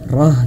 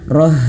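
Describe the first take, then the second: The two takes are said the same way.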